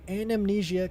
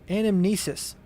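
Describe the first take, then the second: First: The word ends with an 'ah' sound. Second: The word ends with an 'iss' sound. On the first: The speaker calls it wrong. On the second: The speaker calls it right.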